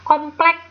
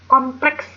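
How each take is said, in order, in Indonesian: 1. Kata ini diakhiri tanpa bunyi s di akhir. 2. Kata ini diakhiri dengan bunyi s yang jelas.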